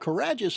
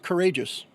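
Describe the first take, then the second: First: The A vowel is short. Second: The A vowel is long. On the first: It is the made-up name built from snippets of names. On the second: It becomes the ordinary English word.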